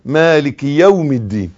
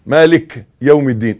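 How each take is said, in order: First: مالك said maliki, short i before يوم; one-beat kasra. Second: مالك ending on a bare k, no i vowel; dropped kasra. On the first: Teacher modelling the correct verse, مالك with short final i. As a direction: give مالك one brief i after the kaf, no lengthening. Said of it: "كسرة على قد الكسرة". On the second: Teacher imitating how some people read, مالك without final i. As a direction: cut the vowel after the kaf in مالك. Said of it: "لا، لا، مالكي مكسورة". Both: Shown as a demonstration.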